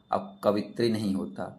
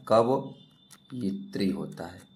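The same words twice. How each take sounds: First: Said in the usual way. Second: कवयित्री said slowly, syllables drawn apart; slow correct form. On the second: Shown as a demonstration. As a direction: stretch out कवयित्री to show the right form. (कवयित्री धीरे और खींचकर सही उच्चारण)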